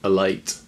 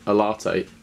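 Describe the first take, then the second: First: The word is said with one syllable. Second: The word is said with two syllables. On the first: The speaker calls it wrong. "he mispronounced" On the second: The speaker calls it right. "to call a latte"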